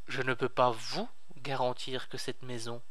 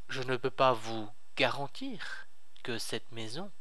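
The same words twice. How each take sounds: First: The stress falls on the word vous. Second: The stress falls on the word maison. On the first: The guarantee might go to another person. "pas à vous, mais à quelqu'un d'autre peut-être" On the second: Something other than the house might be guaranteed. "peut-être que je peux vous garantir quelque chose d'autre"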